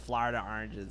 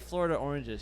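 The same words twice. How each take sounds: First: It is said in a New Jersey accent. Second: It is said in a neutral American accent. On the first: "She goes Florida oranges" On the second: "I get her to say Florida oranges"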